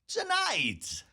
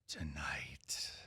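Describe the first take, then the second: First: It is said in a wacky, playful tone. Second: It is said in a dark, grave tone.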